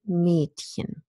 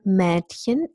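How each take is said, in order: First: The first vowel is a closed e. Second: The first vowel is a half open e. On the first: "lots of people actually pronounce this word with the vowel sound in ise" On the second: "allegedly we always say Mädchen"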